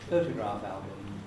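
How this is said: The stress falls on the first word. The speaker calls it right. "it has initial stress"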